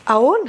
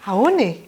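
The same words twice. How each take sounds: First: "Aon" with the pitch rising at the end; greeting as question. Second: "Aone" rounded off with a falling tune; greeting as reply. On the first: Teacher greets someone in the street, rising questioning tune on Aon. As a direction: toss out "Aon" with an upward, asking lilt. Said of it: "Je vous dis Manaon et vous me répondez". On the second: Teacher plays the person replying, falling answering tune on Aone. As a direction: answer "Aone" with the pitch coming down. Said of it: "vous me répondez Manaon". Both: Shown as a demonstration.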